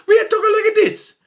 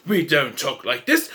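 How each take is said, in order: First: High, loud cartoon Italian accent; hammed-up Italian accent. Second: Put-on lower, restrained British accent; mock British accent. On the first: Insisting on how Romans should talk, mock Italian accent. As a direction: burst back into exaggerated Italian-accented English. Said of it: "They need Italian accents". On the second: Mimicking the film's wrong accent for Romans, British accent. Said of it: "Why do they talk like they're British?".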